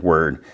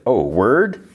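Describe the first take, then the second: First: Short, settled "Word" as an answer; plain confirmation. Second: "word" rising high into a question; retold surprise, "word?" lifted at the end; amused question. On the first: Retold or imitated. Natalie confirms to mom, "Word" falling and matter-of-fact. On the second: Mom questions the AI's explanation, rising on "word". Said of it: "Her mom, like, chuckles".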